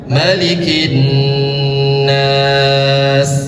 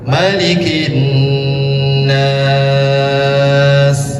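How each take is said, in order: First: The last long vowel is held for four counts. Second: The last long vowel is held for six counts. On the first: "Empat harkatnya" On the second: "Enam harkatnya lebih panjang"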